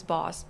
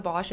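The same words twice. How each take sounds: First: "Boss" with a plain s ending; corrected pronunciation. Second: "Bosch" with a sh ending; common mispronunciation. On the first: Correcting the painter's name for listeners, "Boss" with a final s. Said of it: "It's pronounced Boss". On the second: Correcting how everyone says the painter's name, "Bosch" with a final sh. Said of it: "It's not Bosch". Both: Shown as a demonstration.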